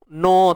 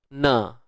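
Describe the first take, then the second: First: The vowel is rounded and heavy, like o. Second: The vowel is open and light, like a. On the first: The speaker calls it wrong. "tak mau no" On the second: The speaker calls it right. "na ni biasa, kawal bunyi dia"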